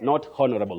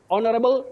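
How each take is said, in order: First: The word starts with an audible h sound. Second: The word starts without an h sound. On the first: The speaker calls it wrong. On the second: The speaker calls it right. "That H is silent"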